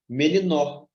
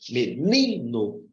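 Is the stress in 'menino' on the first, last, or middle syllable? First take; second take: last; middle. First: The stress is on the last syllable. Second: The stress is on the middle syllable. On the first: The speaker calls it wrong. "Se eu colocar aqui no nó e, e pronunciar com mais força" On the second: The speaker calls it right. "só sobra o ni. E se eu colocar aqui o acento aqui e pronunciar com mais ênfase"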